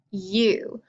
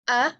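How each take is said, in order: First: "u" said as you, the letter's name; long U sound. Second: "A" said as uh; short U sound. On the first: Teacher drilling vowels with pupils, "u" as long you. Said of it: "for the long sound". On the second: Teacher drilling vowels with pupils, "A" as short uh. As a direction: model "A" as a short uh. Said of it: "for the short sound". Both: Shown as a demonstration.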